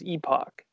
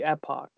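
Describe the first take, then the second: First: It is said the British or Canadian way. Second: It is said the American way. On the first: "If you're in the UK or Canada, it is Epoch" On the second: "So technically in American English, it would be Epoch"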